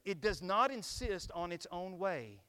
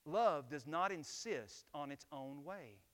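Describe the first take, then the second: First: "not" stressed, every word slow and loud; slow emphatic reading. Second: "Love" hit first, then slow and even; stress on LOVE. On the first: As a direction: lean hard on "not", slow and firm. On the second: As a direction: land on "Love", the rest slow. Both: Shown as a demonstration. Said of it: "Think about this".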